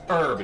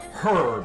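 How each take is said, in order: First: The word starts without an h sound. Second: The word starts with an h sound. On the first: The speaker calls it right. "it actually is pronounced herb" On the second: The speaker calls it wrong. "not herb"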